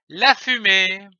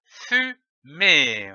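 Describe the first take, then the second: First: Said in the usual way. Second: "fumée" as fu, then mée, with a pause between; syllable by syllable. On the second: Shown as a demonstration. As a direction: sound out "fumée" in two separate beats. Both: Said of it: "L'association de ces syllabes donne".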